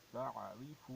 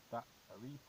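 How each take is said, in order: First: تعریف opened with a soft, gentle ain, no hard stop. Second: تعریف with a hard hamza-like stop at the start; wrong hamza sound. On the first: Teacher shows the correct تعریف with a soft ain. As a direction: ease into تعریف with a smooth throaty ain. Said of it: "عین نرمی سے ادا ہونی چاہیے". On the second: Teacher shows students the wrong way, تعریف with a hard hamza. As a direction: say تعریف with a sharp glottal catch instead of soft ain. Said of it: "حمزہ ہوتا تو ہم اس طرح ادا کرتے". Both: Shown as a demonstration.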